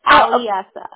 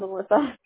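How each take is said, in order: First: The name is said with the E sound. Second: The name is said without the E sound. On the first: The speaker calls it right. "It's Aliessa. ... Has an E" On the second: The speaker calls it wrong. "I think you called Alyssa"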